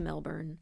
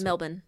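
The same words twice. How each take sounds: First: It is said with an American pronunciation. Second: It is said with an Australian pronunciation. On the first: The speaker calls it wrong. "I wanted to say it the American way" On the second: The speaker calls it right. "In Australia, they pronounce"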